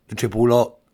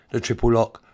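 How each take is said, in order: Both takes have the same delivery.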